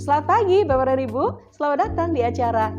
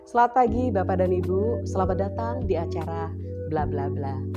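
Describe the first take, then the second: First: It is said with lively, widely varying pitch. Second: It is said with restrained, fairly level pitch.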